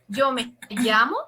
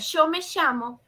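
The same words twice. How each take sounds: First: The y and ll sound like a dj. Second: The y and ll sound like an sh.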